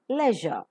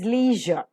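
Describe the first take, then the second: First: It is said with a British RP pronunciation. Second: It is said with a typical Indian pronunciation. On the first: "but the R P pronunciation is leisure" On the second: "The typical Indian pronunciation is leisure"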